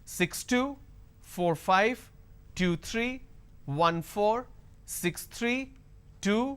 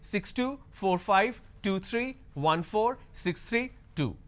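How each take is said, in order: First: The voice rises on the final number. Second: The voice drops so low the final number fades. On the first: Another number is expected to follow. "if I am not dropping this tone, it will sound like as if it's going to continue" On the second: The last number cannot be made out. "they drop it way too low and you can't hear"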